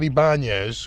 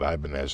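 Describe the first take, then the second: First: The name is given a Spanish-sounding pronunciation. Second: The name is given an American-sounding pronunciation. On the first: This is how the brand intended it. "which is really what it was supposed to be because they're trying to sound Spanish" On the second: This is how people here actually say it. "we just called it Ibanez"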